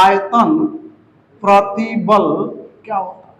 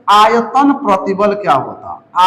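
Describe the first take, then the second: First: "आयतन", "प्रतिबल", "क्या होता है" each set apart with pauses; word by word. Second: Said in the usual way. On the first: Shown as a demonstration. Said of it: "repeated word by word for the class". ("आयतन" ... "प्रतिबल" ... "क्या होता है" को रुक-रुक कर बोलना) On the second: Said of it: "आयतन / प्रतिबल / क्या होता है (repeated)".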